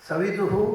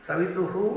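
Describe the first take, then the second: No difference in how they are said.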